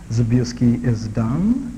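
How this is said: It is said in a doubting, challenging tone. The speaker disputes the claim. "Second way I'm challenging it"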